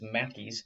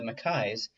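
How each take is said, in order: First: The name is said in another regional form. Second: The name is said in the standard non-American form. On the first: This is how the name is said in some places. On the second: This is the usual pronunciation outside America.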